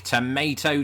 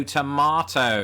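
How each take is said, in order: First: TOMATO as "to-MAY-to"; slow, emphatic MAY-version TOMATO; American tomato. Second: TOMATO as "to-MAH-to"; slow, louder British TOMATO. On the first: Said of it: "You say tomato". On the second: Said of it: "I say tomato". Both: Shown as a demonstration.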